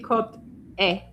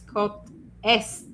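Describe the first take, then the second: First: The word est sounds like a bare 'é'. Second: The word est is said with S and T. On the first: The speaker calls it wrong. "you can't say côte est" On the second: The speaker calls it right. "it's côte est"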